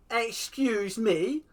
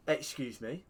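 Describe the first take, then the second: First: Slow, much higher, louder incredulous question; outraged disbelief. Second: Said in the usual way. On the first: Real, not acted. Protesting the referee's penalty, slow outraged rise. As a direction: drag it out in disbelief.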